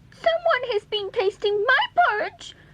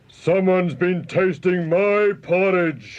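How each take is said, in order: First: It is squeaked in a tiny high voice. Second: It is roared in a deep gruff voice.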